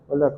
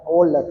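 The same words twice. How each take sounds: First: It is mumbled with the mouth barely open. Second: It is articulated clearly with the mouth open. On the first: The speaker calls it wrong. "hay gente que no abre muy bien la boca para hablar" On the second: The speaker calls it right. "Y así el otro lo entiende"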